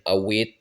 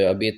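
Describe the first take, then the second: First: The middle consonant is a w sound. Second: The middle consonant is a b sound. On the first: This is how it is said further east. "ça peut devenir awet, ou des trucs comme ça quand on va plus à l'est" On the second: This is the Béarnese pronunciation. "Abet, c'est vraiment la prononciation béarnaise"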